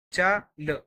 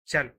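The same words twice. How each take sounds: First: च and ल said apart as separate sounds with a gap between; split into sounds. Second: Said in the usual way. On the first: Shown as a demonstration. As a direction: sound out च then ल, each on its own. (च और ल अलग-अलग बोलना)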